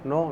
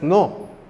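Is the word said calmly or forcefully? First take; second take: calmly; forcefully. First: The word is said calmly and softly. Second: The word is said loudly and forcefully. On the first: A gentle correction. "un no así tranquilo" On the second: A firm correction so they understand. "más fuerte para que entiendan"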